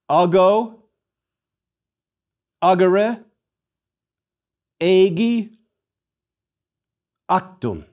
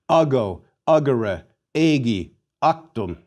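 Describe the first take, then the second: First: The four words are said at normal pace. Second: The four words are said quickly in succession.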